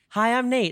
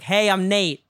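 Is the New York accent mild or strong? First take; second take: mild; strong. First: It has a mild, neutral accent. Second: It has a strong New York accent.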